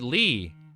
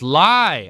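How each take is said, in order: First: The vowel sounds like the word 'lee'. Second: The vowel sounds like the word 'lie'. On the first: The speaker calls it wrong. "I read Lee" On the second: The speaker calls it right. "your name is Lie"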